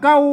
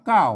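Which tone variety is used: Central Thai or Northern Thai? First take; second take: Northern; Central. First: It is said with the special Northern falling tone. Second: It is said with the ordinary Central falling tone. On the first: "เสียงโทพิเศษ" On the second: "ภาษาไทยเพิ่นอ่านว่าเก้า ... เสียงโทปกติ"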